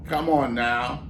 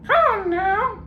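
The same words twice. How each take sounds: First: Said in the usual way. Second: Very high parrot echo; mock him back like a parrot; parrot mimicking. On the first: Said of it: "ventriloquist coaxes".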